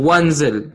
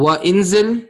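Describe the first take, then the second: First: The i vowel is skipped, joining straight into wanzil. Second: The i vowel before the n is pronounced separately. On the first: The speaker calls it right. "Skipped when joining. So it will be pronounced when joining as Wanzil" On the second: The speaker calls it wrong. "Will it be pronounced wa inzil, number one?"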